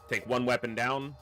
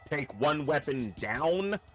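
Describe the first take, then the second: First: The words are said loosely and not clearly. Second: Each word is clearly and carefully enunciated. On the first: The speaker calls it wrong. "I didn't say it clearly enough" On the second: The speaker calls it right. "I need to enunciate"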